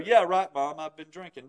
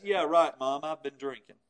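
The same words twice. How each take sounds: First: Drip with sarcasm so it sounds like a denial; mock admission that means no; sarcastic. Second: Sarcastic yeah right, dropping low and soft; mock admission that means no. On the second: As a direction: drip with sarcasm so it sounds like a denial. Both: Shown as a demonstration. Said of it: "said it in such a way with voice inflection".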